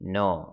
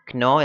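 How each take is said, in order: First: The word begins with an n sound. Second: The word begins with a k sound. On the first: The speaker calls it right. "നോ എന്നാണ് വാക്ക് ഉച്ചരിക്കുക" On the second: The speaker calls it wrong. "ക്നോ എന്ന് പറയരുത്"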